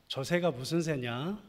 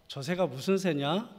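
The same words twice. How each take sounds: The two takes are said the same way.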